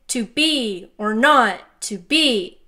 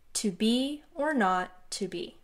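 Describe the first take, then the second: First: Each word is hit evenly, like a robot. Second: Key words get natural, flowing emphasis. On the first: "that's really weird, mechanical, cold, and lifeless like a robot" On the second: "Listen to which words are emphasized"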